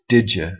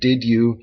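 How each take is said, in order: First: The words blend together into one reduced form. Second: Each word is pronounced clearly and separately. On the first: "in more flowing speech"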